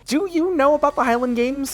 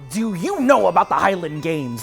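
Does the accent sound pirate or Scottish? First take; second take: Scottish; pirate. First: It is spoken in a Scottish-style accent. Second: It is spoken in a pirate-style accent.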